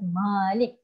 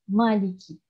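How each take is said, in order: First: The first vowel is held long. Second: The first vowel is kept short. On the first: "kena baca Malik itu dua harakat lah panjang"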